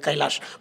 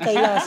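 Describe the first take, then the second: First: The name ends with an sh sound. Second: The name ends with a plain s sound. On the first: It sounds graceful and impressive. "कैलाश असं प्रोनाऊन्स केलं तेव्हा मला वाटलं अरे भारी" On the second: It sounds thin and rustic. "गावाकडे असं "ए कैलास" असं असं तर पातळ वाटायचं"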